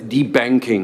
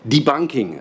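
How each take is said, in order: First: The middle syllable sounds like 'bank'. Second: The middle syllable sounds like 'bunk'.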